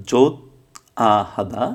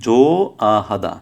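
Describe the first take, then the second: First: জোত আহাদা with a final t in জোত; জোত closed by a t before আহাদা; as-spelled pronunciation. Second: জো আহাদা with জো left open, no t; silent hieut. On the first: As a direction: say জোত, pause, then আহাদা. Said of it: "এখানে হওয়ার কথা ছিল". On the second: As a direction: say জো, pause, then আহাদা. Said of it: "হিউতের উচ্চারণ হবে না". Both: Shown as a demonstration.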